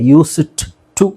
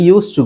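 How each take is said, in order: First: The d is released separately before 'to'. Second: The d is silent and runs into 'to'. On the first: The speaker calls it wrong. "ಯೂಸ್ ಇಟ್ ಟು ಅಂತ ಹೇಳಲ್ಲ" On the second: The speaker calls it right. "Pronunciation ಪ್ರಕಾರ ಇದು correct"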